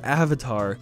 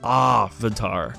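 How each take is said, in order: First: The word is said the familiar way. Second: The word is said the altered way. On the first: This is how the word is normally said. "The word avatar is" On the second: This is how the movie says the word. "they say everything different just to be weird"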